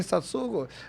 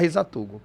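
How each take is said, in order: First: The middle syllable is pronounced 'tsu'. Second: The middle syllable is pronounced 'tu'. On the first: This is how Japanese speakers say the name. "os orientais sempre vão falar Hisatsugo" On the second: Japanese speakers never say the name this way. "eles nunca vão falar Hisatugo"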